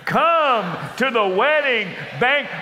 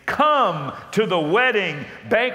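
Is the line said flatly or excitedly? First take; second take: excitedly; flatly. First: It is said excitedly, with lots of energy. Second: It is said flatly, with little energy. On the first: The speaker calls it right. "say it like an excited servant" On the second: The speaker calls it wrong. "Oh no, come on"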